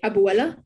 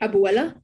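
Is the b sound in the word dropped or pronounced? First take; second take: pronounced; pronounced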